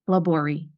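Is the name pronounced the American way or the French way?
American. The name is said with an American pronunciation. This is how the family says the name. The speaker calls it wrong. "the way that I pronounce it and the way that the family pronounces it"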